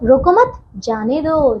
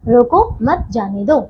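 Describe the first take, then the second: First: There is a pause right after 'mat'. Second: There is a pause right after 'roko'. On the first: Do not stop him; let him go. "दूसरे वाक्य का बच्चों अर्थ हुआ कि उसे रोको मत" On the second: Stop him and do not let him go. "पहले वाक्य का अर्थ हुआ कि रोक लो उसे"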